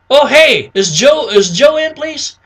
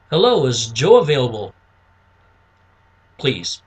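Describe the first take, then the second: First: High, lively phone request; match a lively prospect, pitched right up; upbeat caller mirroring prospect. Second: Low, subdued phone request; match a reserved prospect, pitched down; low-key caller mirroring prospect. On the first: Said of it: "you wanna mirror it". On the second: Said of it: "you wanna relate to them". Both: Shown as a demonstration.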